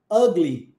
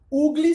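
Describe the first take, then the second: First: "ugly" with the U as an open A, "agli"; English pronunciation. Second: "Ugly" said with a Portuguese U, "ugli"; Portuguese reading. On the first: Teacher models "ugly" correctly for students. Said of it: "Como é que você pronuncia?". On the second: Teacher shows how "Ugly" sounds under Portuguese rules. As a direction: say "Ugly" as a Brazilian would read it, "ugli". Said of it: "se fosse no padrão linguístico do português". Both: Shown as a demonstration.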